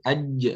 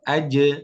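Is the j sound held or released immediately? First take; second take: held; immediate. First: The j is held before its release. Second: The j is released straight away. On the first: The speaker calls it wrong. "nggak perlu tahan" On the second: The speaker calls it right. "tapi langsung aje"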